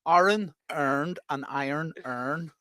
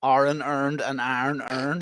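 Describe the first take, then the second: First: Very slow Northern Irish "Iron earned and iron earned"; careful, slowed Northern Irish "Iron earned and iron earned"; Northern Irish accent. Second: Slow, broad Northern Irish "Iron earned and iron earned"; drawn-out Northern Irish "Iron earned and iron earned"; Northern Irish accent. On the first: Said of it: "go say it again". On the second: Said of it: "Just say it like you would normally say it". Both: Shown as a demonstration.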